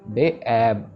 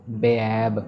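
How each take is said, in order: No difference in how they are said.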